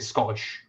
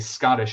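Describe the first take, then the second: First: The T sound is left out. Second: The T sound is clearly pronounced. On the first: "they leave T's out of it" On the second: "when we would say Scottish"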